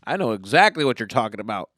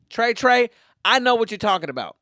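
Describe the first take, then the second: First: Said in the usual way. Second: Higher, louder put-on swagger; mock street talk. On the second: Assuring Trey he is understood, in put-on street talk. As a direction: call out to him in a cocky raised voice.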